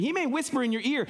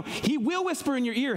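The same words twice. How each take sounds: First: MAY leaned on, high-pitched and quick; emphasis landing on "may"; stress on MAY. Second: WILL punched in a high-pitched line; emphasis landing on "will"; stress on WILL. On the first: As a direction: punch the word may in a rapid, high line. Possibility set against certainty. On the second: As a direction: hit the word will as a certainty. Certainty replaces the repeated may. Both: Real, not acted.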